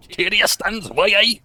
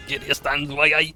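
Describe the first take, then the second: First: Booming Geordie narrator voice, much higher and louder, slowed; Newcastle accent. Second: Geordie narrator voice again, louder, a bit higher; Newcastle accent. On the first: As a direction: belt it out like a Geordie war narrator. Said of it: "I sound like the guy who did the narration". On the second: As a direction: repeat the Newcastle narrator line with a grin. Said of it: "the Cadian accent is Newcastle". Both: Retold or imitated.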